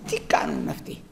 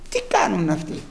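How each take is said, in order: First: Hushed, puzzled whisper. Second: Said in the usual way. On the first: Pretend. People inside the walls asking each other, whispered. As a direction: breathe it like a watcher on the wall.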